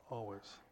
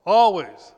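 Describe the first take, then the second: First: Always said low and soft, falling away; quiet, overwhelmed echo of Always; mock dismay. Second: Loud, high, punched answer; emphatic shout. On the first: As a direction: let Always sink in a hushed, deflated tone. Preacher echoes word in awe. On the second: Acted. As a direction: hammer the word Always. Preacher answers his own question.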